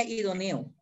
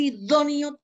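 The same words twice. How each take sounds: First: "idóneo" wrongly stressed on E, as i-do-NE-o; misplaced stress. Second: "idóneo" stressed on the syllable DÓ; stress on first O. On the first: Teacher showing the error without tilde, "idóneo" stressed i-do-NE-o. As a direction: shift the accent in "idóneo" from DÓ to NE. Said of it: "Porque si no diría idóneo". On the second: Teacher showing students where the tilde falls, "idóneo" stressed i-DÓ-neo. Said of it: "tiene tilde en la primera O". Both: Shown as a demonstration.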